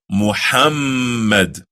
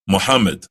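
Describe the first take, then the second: First: Muhammad slow with the emphasis on the doubled mm; correct pronunciation. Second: Muhammad quick and flat, no doubling; Muhammad rushed, without the held mm; wrong pronunciation. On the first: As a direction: lean on the mm in Muhammad. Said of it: "But rather". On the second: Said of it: "Nor is it pronounced". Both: Shown as a demonstration.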